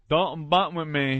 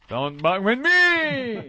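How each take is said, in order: First: It is said flatly, without exclamation. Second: It is said loudly, as an exclamation.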